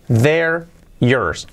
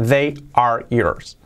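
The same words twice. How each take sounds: First: THEY'RE dicho como una sola sílaba; forma contraída. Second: THEY ARE en dos palabras separadas, despacio; sin contracción. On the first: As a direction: run "they're" together as one word. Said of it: "O, sin contracción". (THEY'RE contraído, en una sola sílaba) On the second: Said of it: "sin contracción". (THEY ARE completo, palabra por palabra) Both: Shown as a demonstration.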